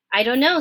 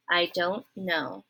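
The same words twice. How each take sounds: First: Said in the usual way. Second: Softer, lower and slow; quiet cowering. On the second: Acted. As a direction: shrink away as you say it. Midge repeats, bracing for a clout.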